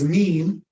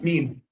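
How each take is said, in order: First: The vowel is drawn out long. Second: The vowel is kept short. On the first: The speaker calls it wrong. "Don't extend it until it becomes mean" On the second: The speaker calls it right. "but mean"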